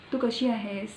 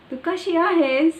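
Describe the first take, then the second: First: Said in the usual way. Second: High, loud sing-song Marathi village accent. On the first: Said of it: "there are so many accents". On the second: Shown as a demonstration. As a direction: lift and push it like a rural Marathi villager. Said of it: "like the village people say".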